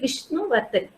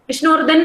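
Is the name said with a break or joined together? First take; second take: break; joined. First: There is a short break between the two parts. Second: The two parts run together without any break. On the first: The speaker calls it right. "We say Vishnu Vardhan" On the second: The speaker calls it wrong. "We cannot just continuously pronounce his name"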